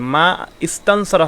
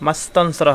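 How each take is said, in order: First: A glottal stop separates the two words. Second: The two words run together without a glottal stop. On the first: The speaker calls it wrong. "মা ইস্তানসরা হবে না" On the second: The speaker calls it right. "মাস্তানসরা হবে"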